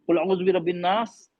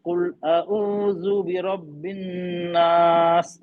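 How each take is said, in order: First: कुल अऊज़ु बिरब्बिन नास run together, no held n or long aa; short vowels all through कुल अऊज़ु बिरब्बिन नास, no elongation; hurried plain recitation. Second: Slow, measured कुल अऊज़ु बिरब्बिन नास with held n and long aa; कुल अऊज़ु बिरब्बिन नास drawn out, swelling on a long नास; Tajweed recitation. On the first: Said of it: "ये हमें तिलावत इस तरह". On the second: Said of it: "एक ये है". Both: Shown as a demonstration.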